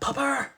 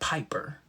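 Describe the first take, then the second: First: The first vowel sounds like 'uh'. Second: The first vowel sounds like 'eye'. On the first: This mimics a child's mispronunciation. The speaker calls it wrong. "he wouldn't say Piper, he would say Pupper" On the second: This is the usual pronunciation. The speaker calls it right. "how hard is it to say Piper?"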